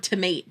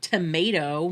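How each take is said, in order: First: "tomate" said tuh-MAYT, rhyming with mate; silly mispronunciation. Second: Said in the usual way. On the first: Shown as a demonstration. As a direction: clip "tomate" short: tuh-MAYT, no final o. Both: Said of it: "I have to say the word tomate".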